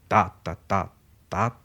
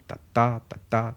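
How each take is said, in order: First: The strong beat falls on the first syllable. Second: The strong beat falls on the second syllable. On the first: This is a trochaic rhythm. "commencer par un accent fort" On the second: This is an iambic rhythm. "un rythme plus agile, plus dansant qui est le yambe"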